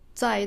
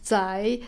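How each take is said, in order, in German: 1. Der Ton fällt stark, von hoch nach tief. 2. Der Ton sinkt tief und steigt dann wieder. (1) "das bedeutet also sich irgendwo befinden" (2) "das ist eine andere Betonung, aber dieselbe Aussprache"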